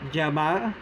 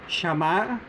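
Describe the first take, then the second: First: The consonant sounds like English j. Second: The consonant sounds like English sh. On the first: "The J-like sound" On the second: "The S H-like sound"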